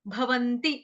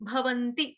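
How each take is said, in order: No difference in how they are said.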